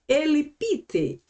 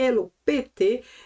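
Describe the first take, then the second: First: It uses the modern Greek vowel pronunciation. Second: It uses the older Greek vowel pronunciation. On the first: "The most modern say Elipite" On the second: "it is a kind of old pronunciation"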